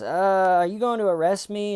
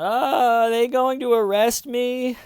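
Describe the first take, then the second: First: Fast, higher mock blurt; a suspect slipping in the worst bit at speed; rushed question. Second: Squeaky high-pitched mock worry; a scared suspect's high, loud little question; high panicky imitation. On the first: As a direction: jam the question in quickly. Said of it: "jam in at the very end with talking fast". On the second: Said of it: "Shannon's going".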